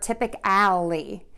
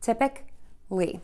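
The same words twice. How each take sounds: First: The middle sounds like the word alley. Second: The middle sounds like the syllable ick. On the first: The speaker calls it wrong. "that sounds like an alley where you put your trash" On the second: The speaker calls it right. "instead of saying uh, we're going to say ick"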